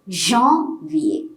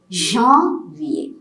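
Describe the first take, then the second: First: The first vowel is said with nasal sound. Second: The first vowel is said with nasal sound.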